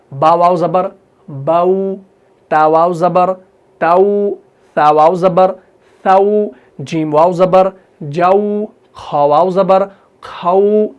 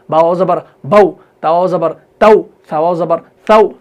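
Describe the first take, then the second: First: Gentle, drawn-out diphthong on बाऊ, ताऊ, जाऊ, खाऊ; soft leen. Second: Short, abrupt "au" on बाऊ, ताऊ, साऊ; quick spelling, final "au" cut short; no glide on बाऊ or ताऊ; hard, wrong reading. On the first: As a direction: spell out, then glide slowly into a long "au". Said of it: "आ गया ना नरमी से?". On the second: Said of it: "सख्ती के साथ नहीं पढ़ना है". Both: Shown as a demonstration.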